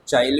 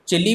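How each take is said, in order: First: The first syllable sounds like 'chai'. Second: The first syllable sounds like 'chi'. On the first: "चाइल भी बोला जाता है" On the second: "इसे चिली भी बोला जाता है"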